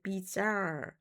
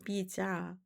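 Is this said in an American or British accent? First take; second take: American; British. First: It is said in an American accent. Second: It is said in a British accent. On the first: "미국 발음으로는" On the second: "영국 발음은"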